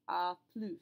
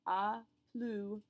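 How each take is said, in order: First: The final S of plus is pronounced. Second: The final S of plus is silent. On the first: "now we have to say the S" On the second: "we pronounce neither the S nor the D"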